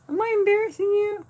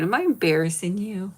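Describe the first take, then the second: First: Much higher, squeaky and loud. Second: Said in the usual way. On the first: Pretend. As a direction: tease the dog in a squeak.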